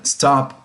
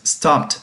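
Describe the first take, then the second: First: "stop" said short, with no ending sound; present tense stop. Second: "stopped" said slowly, ending in a clear t sound; past tense stopped. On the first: Teacher shows how the present tense sounds: "stop" with no ending. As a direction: clip "stop" off cleanly, with nothing after the p. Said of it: "si lo escuchas de esa forma es presente". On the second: Teacher shows how the past tense sounds: "stopped" ending in t. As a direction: land on the final t of "stopped". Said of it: "es en pasado". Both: Shown as a demonstration.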